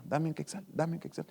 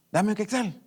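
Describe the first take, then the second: First: Softer, repeated little plea; a small nagging voice asking for a coin; mild mock begging, softer. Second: Said in the usual way. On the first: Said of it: "esa vocecita va". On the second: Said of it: "esa vocecita".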